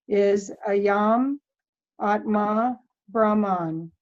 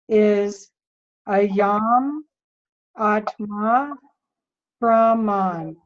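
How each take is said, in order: First: It is read at a normal pace and volume. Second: It is read more slowly and more loudly.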